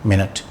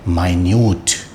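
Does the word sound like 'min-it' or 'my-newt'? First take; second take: min-it; my-newt. First: It is said like 'min-it', stress first. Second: It is said like 'my-newt', stress second. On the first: A unit of sixty seconds. "Six मिनट हो चुकी हैं मिनट" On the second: Something very small. "उस माइन्यूट का मतलब होता है small"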